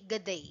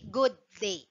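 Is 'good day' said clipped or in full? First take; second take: clipped; full. First: The two words are clipped together into one. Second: Both words are said fully and separately. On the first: The speaker calls it right. "you have to pronounce it in a slang" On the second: The speaker calls it wrong. "hindi good day"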